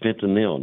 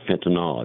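First: The word ends with an 'il' sound. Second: The word ends with an 'ol' sound. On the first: The speaker calls it right. "it's fentanyl" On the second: The speaker calls it wrong. "not fentanyl. It's not an alcohol"

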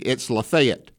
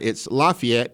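First: It is said the way Mississippi locals say it. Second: It is said the way Indiana locals say it. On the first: "Here in Mississippi" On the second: "I think it's in Indiana"

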